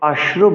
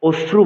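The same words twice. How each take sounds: First: The first vowel is an open 'a' sound. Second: The first vowel is a rounded 'o' sound. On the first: The speaker calls it right. "অশ্রু বলতে হবে" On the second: The speaker calls it wrong. "অনেকে অশ্রু বলে"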